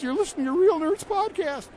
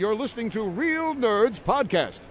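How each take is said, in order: First: The voice is a plain, natural speaking voice. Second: The voice is a deep, put-on announcer voice. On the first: "Should I do this as my real self?" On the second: "this is my announcer voice"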